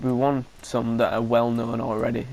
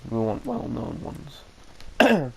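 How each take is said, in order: First: Said in the usual way. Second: Well known drawn out slowly and stressed; slow emphatic correction. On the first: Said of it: "n-, not, not known". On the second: Real, not acted. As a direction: say well known slowly, leaning on each word. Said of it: "not known".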